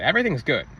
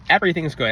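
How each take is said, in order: First: Said in the usual way. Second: The repeat pushed a bit harder; insisting, with more weight; emphatic repeat. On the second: Shown as a demonstration. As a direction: lean into Everything's good the second time.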